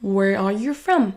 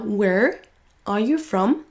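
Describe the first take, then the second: First: "are you" weakened, "from" stressed and falling; reduced. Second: Said in the usual way. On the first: Shown as a demonstration. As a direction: shrink "are you", lean on "from". (are you réduit, accent sur from) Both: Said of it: "qui va être réduit en".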